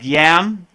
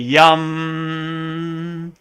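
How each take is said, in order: First: The vowel is an open 'a' sound. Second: The vowel is a short 'u' sound. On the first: The speaker calls it wrong. "the next one looks like yam" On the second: The speaker calls it right. "but it's really yum"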